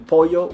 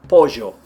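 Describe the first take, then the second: First: The ll is said like an English y. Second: The ll is an Argentine-Uruguayan zh sound.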